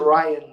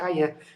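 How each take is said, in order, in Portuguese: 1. O nome é dito com pronúncia inglesa. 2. O nome é dito com pronúncia portuguesa. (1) "o nome como o nome inglês é Ryan" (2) "ao colocar ali aquele A, a gente tem tendência a dizer Ryan"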